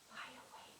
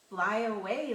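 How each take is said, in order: First: It is said quietly. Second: It is said loudly.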